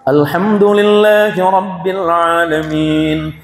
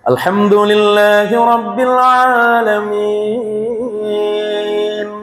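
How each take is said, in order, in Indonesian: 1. Dibaca dengan kecepatan sedang. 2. Dibaca dengan lambat dan merdu. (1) "Boleh tadwir di pertengahan" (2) "Jadi dengan memperindah"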